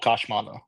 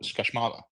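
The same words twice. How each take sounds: First: The middle syllable is not stressed. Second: The stress falls on the middle syllable. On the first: The speaker calls it wrong. "you don't go Kashmala like that's not how we would I would pronounce it" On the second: The speaker calls it right. "the emphasis is on the the ma like after the Kashma like you go Kashmala"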